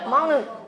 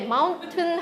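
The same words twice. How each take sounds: First: The T is a glottal stop. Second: The T is fully released. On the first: Listeners understand it more easily. The speaker calls it right. "mountain 이러면 아 이게 글로럴 스탑이 있어서 그렇죠" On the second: Listeners understand it less easily. The speaker calls it wrong. "mountain보다는"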